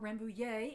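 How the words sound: The word is said with French pronunciation.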